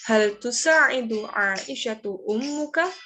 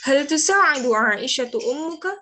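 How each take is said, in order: First: The question is spoken slowly. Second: The question is spoken quickly. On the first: "Kalau lambat" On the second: "kalau agak lebih cepat"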